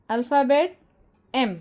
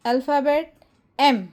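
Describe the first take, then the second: No difference in how they are said.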